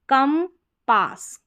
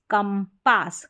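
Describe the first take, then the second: First: compass slowly as kam, pause, pass; slow, spaced compass for learners; split into syllables. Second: Said in the usual way. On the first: Shown as a demonstration. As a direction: sound out compass in two parts, first one higher. Teacher splits word, then blends.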